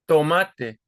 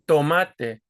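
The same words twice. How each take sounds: Both takes have the same delivery.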